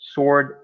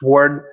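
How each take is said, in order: First: It is said with a British accent. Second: It is said with an American accent.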